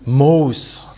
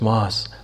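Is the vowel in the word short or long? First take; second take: long; short. First: The vowel in the word is long. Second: The vowel in the word is short. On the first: The speaker calls it right. "ich sage immer Moss anstatt Moos" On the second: The speaker calls it wrong. "Papa, nicht Moss"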